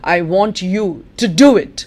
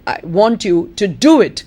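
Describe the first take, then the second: First: The stress falls on the word do. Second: The same.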